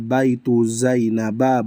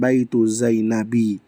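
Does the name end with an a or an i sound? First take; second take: a; i. First: The name ends with an a vowel. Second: The name ends with an i vowel. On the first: The speaker calls it right. "makanya dia dibaca baitu Zainaba" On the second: The speaker calls it wrong. "bukan baitu Zainabi"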